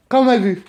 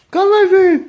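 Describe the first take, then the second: First: Loud, short call; firm summons to a dog. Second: High, much louder call, last syllable held; insistent high-pitched shout; shouted dog call. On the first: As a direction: call the dog at normal pitch, firmly. Calling a dog, first try. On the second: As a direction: holler for a dog to come. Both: Real, not acted.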